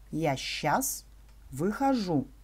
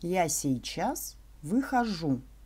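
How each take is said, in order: First: The word сейчас is shortened to one syllable, щас. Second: The word сейчас is said in full, three syllables.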